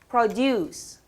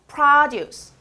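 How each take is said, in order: First: The stress is on the second syllable. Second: The stress is on the first syllable. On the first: It is a verb. "동사" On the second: It is a noun. "명사"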